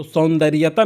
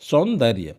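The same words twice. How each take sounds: First: सौंदर्यता with an extra "taa" on the end; wrong form demonstrated. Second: सौंदर्य ending on "rya", lower and falling; correct form demonstrated. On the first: Teacher rejects the everyday word, wrong form demonstrated. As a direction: say सौंदर्यता as saun-dar-ya-taa. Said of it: "सौंदर्यता नहीं होता". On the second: Teacher answers own question, correct form demonstrated. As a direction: say सौंदर्य as saun-dar-ya, nothing after it. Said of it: "क्या होता है?". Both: Shown as a demonstration.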